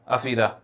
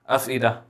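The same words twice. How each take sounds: Both takes have the same delivery.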